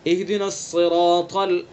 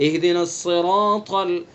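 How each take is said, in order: Both takes have the same delivery.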